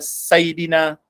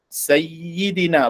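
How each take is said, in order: First: The y sound is short and single. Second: The y sound is held double. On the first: The speaker calls it wrong. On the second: The speaker calls it right. "Ada syaddah kat situ"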